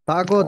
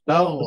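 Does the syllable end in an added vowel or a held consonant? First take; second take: added vowel; held consonant. First: The syllable ends with an added vowel sound. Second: The syllable ends on a held consonant. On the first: The speaker calls it wrong. "তাগো যেন না হয়।" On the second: The speaker calls it right. "তাগ ধরে রাখবে"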